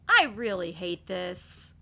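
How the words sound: It is said in an annoyed, frustrated tone. The speaker is genuinely annoyed. "when you're frustrated"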